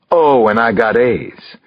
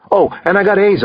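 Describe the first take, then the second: First: Slow, playful mimicking of a boast; teasing echo. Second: Said in the usual way. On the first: A narrator's reading. Proud dad repeating son's news, teasing echo.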